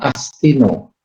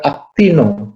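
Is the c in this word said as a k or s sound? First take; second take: s sound; k sound. First: The c is pronounced as an s sound. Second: The c is pronounced as a k sound. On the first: The speaker calls it wrong. "bukan Astino" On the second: The speaker calls it right. "juga Actino"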